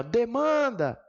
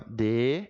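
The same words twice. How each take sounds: First: "demanda" with MAN stretched and pitched high; sílaba tônica destacada. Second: DE... MAN... DA, long pauses between syllables; separação silábica. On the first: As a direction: punch and lengthen the MAN in "demanda". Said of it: "quando eu falo assim". ("demanda" com ênfase forte e alongada no MAN) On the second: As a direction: say "demanda" one syllable at a time. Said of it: "separa assim". ("demanda" separado em sílabas, de - man - da) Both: Shown as a demonstration.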